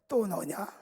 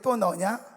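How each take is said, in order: First: It is said at normal loudness. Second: It is said louder and more forcefully.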